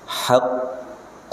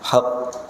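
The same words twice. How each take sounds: First: The final consonant is held before release. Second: The final consonant is released quickly. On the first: The speaker calls it right. "Tahan dulu" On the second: The speaker calls it wrong. "Jangan buru-buru. Haqq, tidak"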